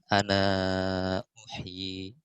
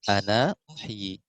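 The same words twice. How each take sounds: First: The vowel before the hamza is held medium-long. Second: The vowel before the hamza is held short.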